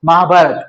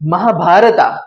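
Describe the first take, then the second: First: The word ends on a bare consonant. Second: The word ends with an added final vowel. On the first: This is the usual Gujarati way. "આપણે ઉચ્ચારણ કરીએ" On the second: This is how some other speakers say it. "South Indian લોકોને ... એ ઘણી વખત કેવું બોલે"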